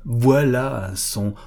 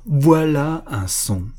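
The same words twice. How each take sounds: First: Slow, reverent, moved voice; a touch of an old man's emotion; deeply moved. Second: Slow and louder, swelling with emotion; an old man overcome by his own sound; moved exclamation. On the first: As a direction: savour it, slowly and with awe. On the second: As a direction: let the awe burst out. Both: A narrator's reading. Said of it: "d'une voix profondément émue".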